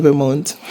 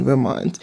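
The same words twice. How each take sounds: First: "Vermont" rhyming with "amount"; Vermont said as "ver-MOUNT". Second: "Vermont" with an open "ah" ending; Vermont said as "ver-MAHNT". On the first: Vlogger corrects herself on the place name, "Vermont" as ver-MOUNT. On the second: Vlogger talking of her time there, "Vermont" as ver-MAHNT. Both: Shown as a demonstration. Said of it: "So if you hear me say Vermont".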